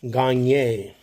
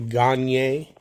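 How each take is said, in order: First: The name is said in a French way. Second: The name is said in a French way.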